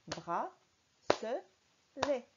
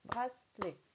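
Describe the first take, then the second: First: It is said with three separate, full syllables. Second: It is said quickly with only two syllables. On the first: The speaker calls it right. "Il y a bien trois syllabes" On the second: The speaker calls it wrong. "on a tendance à parler vite et on dit bracelet. Comme s'il n'y avait que deux syllabes"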